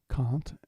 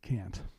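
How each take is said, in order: First: It is said in a British accent. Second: It is said in an American accent. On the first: This is how the British musician says it. "he says can't" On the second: This is how Americans say it. "we Americans say can't"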